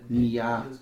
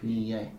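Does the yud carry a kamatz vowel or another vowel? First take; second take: kamatz; another vowel. First: The yud is said with a kamatz vowel. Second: The yud is said with another vowel. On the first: The speaker calls it right. "the yud should be pronounced with a kamatz" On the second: The speaker calls it wrong. "not Nia"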